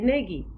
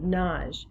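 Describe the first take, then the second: First: The name is said with two syllables. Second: The name is said as one syllable. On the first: "pronounce it with two syllables" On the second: "the Hungarian pronunciation of Naj. It rhymes with Taj"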